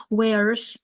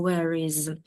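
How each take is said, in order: First: Where's said fast as one syllable; contracted where's. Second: Said in the usual way. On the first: Shown as a demonstration. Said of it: "Це пришвидшена вимова". (стягнуте where's одним складом) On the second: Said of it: "де або where is".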